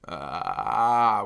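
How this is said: The vowel starts with a low, creaky rattle. "And there's vocal fry, which is ah"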